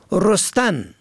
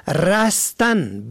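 First: رستن said as rostan, o first; damma on first letter. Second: رستن said slowly as rastan, a first; fatha on first letter. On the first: Teacher contrasting homographs, rostan with damma. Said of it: "به ضم اول". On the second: Teacher contrasting homographs, rastan with fatha. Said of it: "به فتح اول". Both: Shown as a demonstration.

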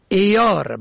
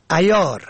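First: عیار said "eyaar"; kasra on first syllable. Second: عیار said "ayaar"; fatha on first syllable. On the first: Presenter teaching the word for assaying, عیار as "eyaar". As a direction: open عیار with e. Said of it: "به کسر اول". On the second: Presenter teaching the word for clever, عیار as "ayaar". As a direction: open عیار with short a. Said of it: "به فتح اول". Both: Shown as a demonstration.

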